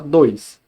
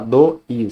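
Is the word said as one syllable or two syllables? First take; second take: one syllable; two syllables. First: The word is said together as one syllable. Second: The word is split into two separate syllables. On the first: The speaker calls it right. "você fala dois" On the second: The speaker calls it wrong. "Você não vai falar do is"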